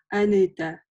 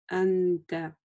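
First: An extra vowel is heard between n and t. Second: The n glides smoothly into t without a vowel. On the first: The speaker calls it wrong. "Нельзя, например, прочитать анэта. Да, то есть это будет неправильно" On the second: The speaker calls it right. "Плавно заканчиваем"

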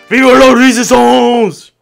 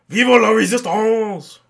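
First: It is said loudly. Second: It is said quietly.

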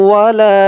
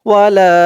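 The two takes are said the same way.

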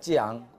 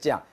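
First: It is spread over two separate syllables. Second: It is squeezed into a single syllable. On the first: The speaker calls it right. "두 자로 풀어서 하란 말이죠" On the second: The speaker calls it wrong. "이걸 줄여서 이제 이렇게 또 많이 하는데 가능하면 이렇게 하지 말고"

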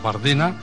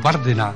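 First: The stress is on the second syllable. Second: The stress is on the first syllable. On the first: "en diana" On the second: "en esdrújula"

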